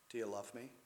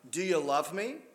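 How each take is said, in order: First: It is said in a compassionate tone. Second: It is said in an accusing tone.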